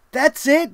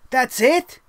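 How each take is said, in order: First: That's it said falling and flat; a deflated letdown, not a question. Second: Disbelieving question. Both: Retold or imitated. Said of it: "'cause I was like".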